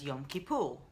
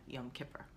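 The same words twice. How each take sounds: First: "Kippur" said kee-POOR, long ee and oo; non-American pronunciation. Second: "Kippur" Americanized as KIP-er, softly; soft American aside, short i and r-colored ending in "Kippur"; American accent. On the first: Host naming the holiday to her viewers, non-American pronunciation. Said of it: "or in my American accent". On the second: Host offering viewers her own version, American accent. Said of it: "in my American accent". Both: Shown as a demonstration.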